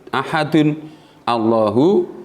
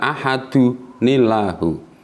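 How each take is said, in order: First: The words stay separate with a glottal onset. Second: The nun links directly into the next word.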